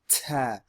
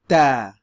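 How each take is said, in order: First: The t is released with a puff of air. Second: The t is released without a puff of air. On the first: The speaker calls it wrong. "Notice I'm not saying ta" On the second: The speaker calls it right. "it's a more clean pronunciation"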